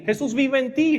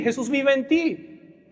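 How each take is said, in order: First: Said in the usual way. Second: "Jesús vive en ti" drawn out slowly, stress on "vive"; preacher repeating to the congregation, slowed down; slow emphatic repeat. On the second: Real, not acted. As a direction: repeat it slowly so each word sinks in.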